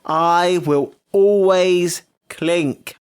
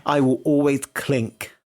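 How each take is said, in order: First: Very slow, raised, word by word; defiant declaration. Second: Slow, measured vow; deliberate declaration. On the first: Insisting after being told it's common, drawn-out defiance. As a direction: proclaim each word separately and stubbornly. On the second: Defying William Hanson with a message, slow declaration. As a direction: say it slowly as a formal message. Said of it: "this is a message for William Hanson". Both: Real, not acted.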